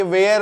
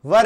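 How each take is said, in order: First: "where" said as वेयर in place of were; mispronounced were, sounding like "where"; wrong pronunciation. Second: "वर" as in वर वधु, for English were; correct pronunciation. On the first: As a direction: say "where" as vay-er, the mistaken were. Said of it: "but ये where नहीं है". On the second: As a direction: say "वर" with a short vur sound. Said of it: "वर यानी वर वधु वाला वर". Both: Shown as a demonstration.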